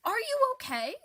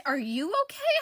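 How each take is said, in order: First: "you" lifted high, the rest light; concerned question hitting "you"; stress on you. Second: "okay" pushed, rising at the end; stress on okay. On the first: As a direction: ask "Are you okay?" leaning on "you". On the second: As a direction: fire back "Are you okay?" leaning on "okay". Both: Acted. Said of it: "Am I okay?".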